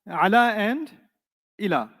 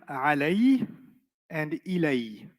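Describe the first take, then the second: First: Both words end in a plain 'a' vowel. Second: Both words end in an 'ay' glide. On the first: "Some of them end with ah" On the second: "they sound like alay and ilay"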